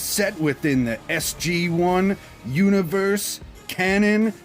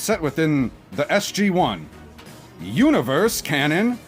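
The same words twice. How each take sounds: First: It is read straight through without a pause. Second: There is a pause after 'SG one'.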